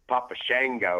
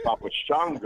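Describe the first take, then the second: First: Shango with a twangy short "a", SHANG-go; country pronunciation. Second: Shango with a broad "ah", SHONG-go; non-country pronunciation. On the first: Wrestler showing the country way, Shango as SHANG-go. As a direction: say Shango country style, rhyming with "tango". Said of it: "thought it was a little country saying". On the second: Wrestler contrasting with country style, Shango as SHAHN-go. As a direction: say Shango with an open "ah". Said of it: "instead of Papa Shango". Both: Shown as a demonstration.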